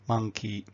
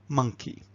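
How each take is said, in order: First: Both syllables are given equal strength. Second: The first syllable is much stronger than the second. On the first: The speaker calls it wrong. "We don't want to be them to be saying monkey" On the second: The speaker calls it right. "the first syllable is much stronger than the second"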